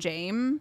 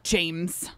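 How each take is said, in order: First: The final s sound is left off. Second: The final s sound is clearly pronounced. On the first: This is how a Thai speaker says it. "nobody pronounces the S in Thai, like a Thai person would be would call him James" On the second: This is how a fluent English speaker says it. "he very clearly is like James"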